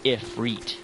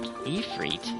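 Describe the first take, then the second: First: The second syllable sounds like 'reet'. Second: The second syllable sounds like 'rit'. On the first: "like if and reet" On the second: "Is that how it's pronounced?"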